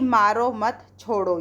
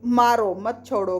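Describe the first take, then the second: First: The pause comes after the word mat. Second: The pause comes after the word maaro.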